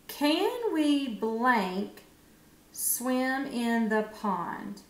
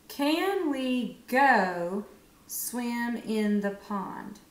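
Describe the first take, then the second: First: Very slow, word by word; slow reading with blank. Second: Very slow, word by word; slow checking read. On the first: Teacher slowly reads the gapped sentence to children. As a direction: read it slowly with the gap. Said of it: "let's just read it". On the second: Teacher checks the answer by reading slowly. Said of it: "read it to double check". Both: Shown as a demonstration.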